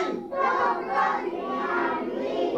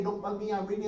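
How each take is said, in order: First: Chanted high and slow, drawing out each word; group chant. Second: Said in the usual way. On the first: Shown as a demonstration. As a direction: lead the kids in a slow chant. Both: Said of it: "You guys say".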